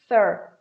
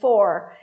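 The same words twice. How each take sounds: First: The word is said in a reduced form. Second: The word is said in its full form. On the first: The word is part of a sentence. "it's going to be reduced" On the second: The word is said on its own. "só quando é falado sozinho"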